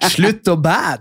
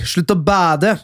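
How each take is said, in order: First: It is said in a North Norwegian accent. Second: It is said in an Eastern Norwegian accent.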